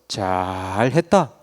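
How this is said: It is said in a harsh, annoyed tone. "인상을 팍 쓰면서"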